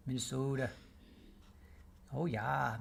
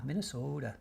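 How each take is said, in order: First: Long pure O in Minnesota, Minne-SOH-ta; Minnesota accent. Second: Said in the usual way. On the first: Shown as a demonstration. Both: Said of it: "I can only say that because I'm from the Midwest".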